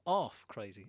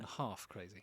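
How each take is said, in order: First: The H at the start of half is dropped. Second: The H at the start of half is pronounced. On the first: "no one ever pronounces the H in half" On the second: "rather than half crazy"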